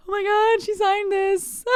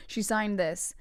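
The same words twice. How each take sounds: First: High, loud squeal of a thrilled fan; starstruck fan squeal. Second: Said in the usual way. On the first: Retold or imitated. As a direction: squeal it, stretching the end. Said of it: "but I was like".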